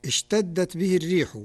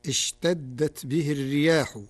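First: Said in the usual way. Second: Plural "الرياح", riyah; Warsh reading. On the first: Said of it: "قرأ ورش كلمة الريح". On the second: Shown as a demonstration. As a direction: say "الرياح" with a long ya-a. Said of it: "بالجمع، فتصير".

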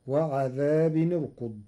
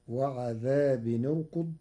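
First: Said in the usual way. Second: وعذاب ارقد joined as wa-ʿadhābun-urkud, the tanwin carrying damma; Warsh tanwin with damma. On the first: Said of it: "قرأ ورش كلمتي". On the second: Shown as a demonstration. Teacher reciting وعذاب ارقد with tanwin damma. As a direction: link وعذاب to ارقد with a nun-u sound. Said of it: "بضم التنوين في حالة الوصل".

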